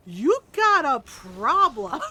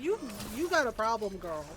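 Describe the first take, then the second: First: Loud, drawn-out mock outrage; exaggerated call-out. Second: Said in the usual way. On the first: Player mock-scolding Mystra, loud exaggerated call-out. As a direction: belt it out slowly, milking every word. Acted reaction to game's revelation.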